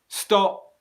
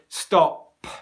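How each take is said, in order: First: The final P is held with no air released. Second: The final P is released with a strong burst. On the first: The speaker calls it right. "no airflow comes out" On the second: The speaker calls it wrong. "But I do not say stop"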